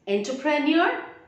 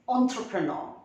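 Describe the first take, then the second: First: The first syllable sounds like 'en'. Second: The first syllable sounds like 'on'. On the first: The speaker calls it wrong. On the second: The speaker calls it right. "E N will be pronounced as on and the last R is silent"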